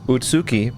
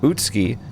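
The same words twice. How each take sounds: First: The 'u' after the 'ts' is fully voiced. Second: The 'u' after the 'ts' is silent.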